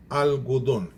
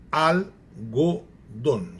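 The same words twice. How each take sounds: First: Said in the usual way. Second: Algodão very slow, broken into al, go, don; syllable by syllable. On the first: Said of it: "A famosa separação silábica". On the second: Shown as a demonstration. Teacher showing syllable division, "algodão" said slowly in separate syllables. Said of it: "se separou silabicamente".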